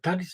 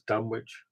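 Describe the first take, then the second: First: The middle w is silent. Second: The middle w is clearly pronounced. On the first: The speaker calls it right. "It should be pronounced like Greenwich" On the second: The speaker calls it wrong. "doesn't sound as good as Dunwich"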